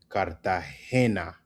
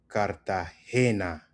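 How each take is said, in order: No difference in how they are said.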